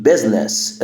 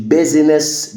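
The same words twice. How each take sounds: First: "business" as "biz-ness", two syllables; silent I. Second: "business" as "biz-i-ness", three syllables; wrongly sounded I. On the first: Teacher corrects the mistake, "business" with silent I. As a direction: drop the middle I in "business". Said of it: "ال I هنا silent". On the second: Teacher shows learners the mistake, "business" with an extra syllable. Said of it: "الكلمة دي مش business". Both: Shown as a demonstration.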